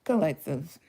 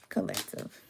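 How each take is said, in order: First: Said in the usual way. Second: Soft call. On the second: Shown as a demonstration. Calling the viewers again.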